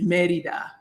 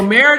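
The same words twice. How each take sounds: First: It is said with Spanish sounds and a rolled R. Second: It is said with English sounds, R not rolled. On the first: "let me roll my R's ... in Spanish" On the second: "probably the English pronunciation"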